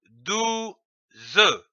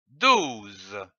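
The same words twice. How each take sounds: First: "douze" split in two, dou, then ze; syllable by syllable. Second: Said in the usual way. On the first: Shown as a demonstration. Teacher showing how two syllables give the word, syllable by syllable. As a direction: sound out "douze" as dou ... ze, final e fully voiced. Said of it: "L'association de ces deux syllabes donne". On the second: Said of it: "donne le mot".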